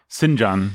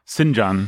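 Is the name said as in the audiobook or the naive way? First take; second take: audiobook; audiobook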